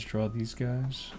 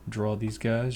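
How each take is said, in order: First: Slow and quieter, drawn out; unhurried quiet murmur while sketching; slow, soft repeat. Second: Said in the usual way. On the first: Shown as a demonstration. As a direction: say it again slowly under your breath. Repeating a phrase while drawing.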